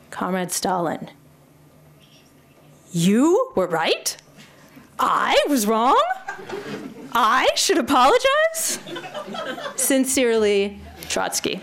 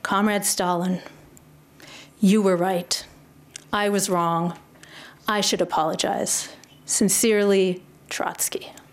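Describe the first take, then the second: First: The sentences rise like incredulous sarcastic questions. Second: The sentences fall like plain sincere statements.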